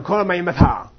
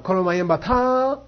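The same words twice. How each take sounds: First: "Koro mayim batha" with the tune falling at the end, a flat statement. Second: "Koro mayim batha" a bit slower with the tune going up on batha, a questioning jab; rising tone. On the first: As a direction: let "Koro mayim batha" drop down on batha, matter-of-fact. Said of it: "When you go down". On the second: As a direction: lift "Koro mayim batha" upward at the end like a sarcastic question. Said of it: "But when you go up". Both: Shown as a demonstration.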